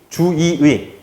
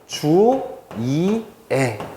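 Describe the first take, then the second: First: The middle syllable is i, the last is ui. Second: The middle syllable is i, the last is e. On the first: "주의에서 두 번째 의를 이라고 바꾸는 겁니다" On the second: "마지막으로는 주이애"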